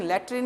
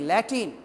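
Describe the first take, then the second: First: लैट्रिन with an added r, the word the teacher warns against; teacher says the wrong form लैट्रिन to warn his students; wrong pronunciation. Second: लैटिन said clearly as lai-tin, no r; teacher gives students the right लैटिन, slowly and clearly; correct pronunciation. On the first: Teacher shows students the mistaken लैट्रिन sound. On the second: Teacher corrects students with a careful लैटिन. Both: Shown as a demonstration. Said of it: "लैटिन, लैट्रिन नहीं".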